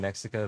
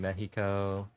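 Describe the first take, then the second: First: It is said with an English pronunciation. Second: It is said with a Spanish pronunciation. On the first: This is the English name of the country. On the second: This is the country's name in its own language.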